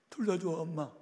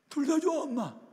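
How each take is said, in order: First: Put-on higher girlish voice, gently pleading; a schoolgirl begging her mother; pleading daughter. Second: Much higher and louder, crying out; the daughter wailing under the blows; desperate cry. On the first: Daughter answers her drunk mother, higher pleading voice. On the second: Retold or imitated. Daughter cries out to her beating mother, high desperate wail. Girl repeating answer while beaten.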